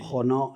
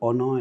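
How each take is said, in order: First: The name is said with Spanish pronunciation. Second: The name is said with English pronunciation. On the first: "en español" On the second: "en inglés"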